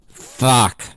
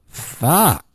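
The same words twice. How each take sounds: First: It sounds angry. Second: It sounds excited.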